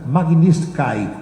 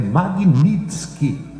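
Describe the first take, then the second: First: The name ends with a 'kai' sound. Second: The name ends with a 'kee' sound. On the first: The speaker calls it wrong. "tem gente pronunciando Magnitsky, que é K Y no final. Não é" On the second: The speaker calls it right. "é Magnitsky, K I no final"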